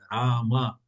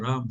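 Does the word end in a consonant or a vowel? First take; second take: vowel; consonant. First: The word ends with an a vowel. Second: The word ends on the consonant m. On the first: The speaker calls it right. "c'est Rama" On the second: The speaker calls it wrong. "c'est pas Ram"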